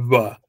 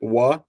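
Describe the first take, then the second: First: It starts with a v sound. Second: It starts with a w sound. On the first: This is the speaker's own everyday pronunciation. "I just do va" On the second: This is the full old Bohairic pronunciation. "the full, quote unquote, old Bohairic, straight up wa"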